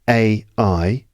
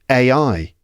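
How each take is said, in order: First: The two letters are said separately. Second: The two letters run quickly together. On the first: "repeat it after me" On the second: "spoken one after the other quickly is it sounds like this"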